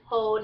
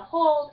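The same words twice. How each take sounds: First: "hold" without its L, as "hode"; Kentucky hode. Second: Said in the usual way. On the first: Shown as a demonstration. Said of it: "it's hold". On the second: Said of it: "instead of hold".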